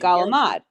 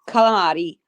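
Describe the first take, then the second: First: The word is clipped, ending without its final vowel. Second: The word is said in full, with every syllable. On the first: This is the Italian-American slang form. "I say galamad. John says galamad" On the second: This is the form understood in Italy. "you pronounce the full thing"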